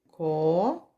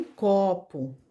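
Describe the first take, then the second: First: "Copo" split into "co" and "po", with a long gap; syllable by syllable. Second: Said in the usual way. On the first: Shown as a demonstration. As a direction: draw out "co", pause, then say "po" in "Copo". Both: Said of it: "recortarmos as sílabas".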